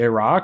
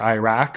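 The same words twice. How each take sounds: First: The word is pronounced close to the original language. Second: The word is pronounced in an anglicized, adapted way. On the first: "more source like pronunciations" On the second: "more adapted, less source like pronunciations"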